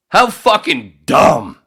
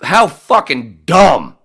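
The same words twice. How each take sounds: First: Higher, loud, slow disgusted repeat; exasperated. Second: Loud, slow disgusted outburst; exasperated. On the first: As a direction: hit it again, even higher. Repeats outburst. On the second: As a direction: spit it out slowly in disgust. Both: Real, not acted.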